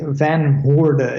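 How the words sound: The name is said with English pronunciation. "if you want to pronounce it in English way"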